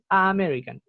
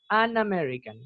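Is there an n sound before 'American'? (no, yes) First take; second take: no; yes. First: The article is a bare vowel with no n. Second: An n sound links the article to the word. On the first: The speaker calls it wrong. "Como difícil decir a American" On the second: The speaker calls it right. "le agregan la N para que uno en verdad pueda dividir las palabras"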